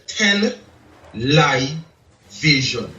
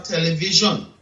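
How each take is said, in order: First: "tele-live vision" broken into separate parts with pauses; word slowed and split. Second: Said in the usual way. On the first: Shown as a demonstration. Man revealing a lie hidden in television, "tele-live vision" split up slowly. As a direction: pull "tele-live vision" apart, pausing before "vision". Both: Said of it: "slow it down and realize".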